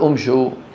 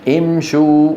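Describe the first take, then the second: First: The word begins with a 'u' vowel. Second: The word begins with an 'i' vowel. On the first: The speaker calls it wrong. "ما نقول امشوا" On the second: The speaker calls it right. "يضمون الشين لمجانسة الواو فيقولون امشوا، وتبقى الهمزة مكسورة"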